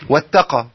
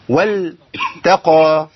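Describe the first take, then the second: First: The lam disappears and merges into the ta. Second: The lam is clearly pronounced before the ta. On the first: The speaker calls it wrong. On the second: The speaker calls it right.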